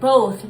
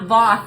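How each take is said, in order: First: The name has a long o, like both. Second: The name has a short o, like moth. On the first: The speaker calls it right. "It's both like both" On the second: The speaker calls it wrong. "not Voth like moth"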